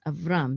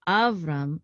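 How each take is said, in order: First: The stress is on the last syllable. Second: The stress is on the first syllable. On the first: The speaker calls it right. "it's Avram, because the katon is right above this syllable right here, this last syllable" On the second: The speaker calls it wrong. "It's not Avram"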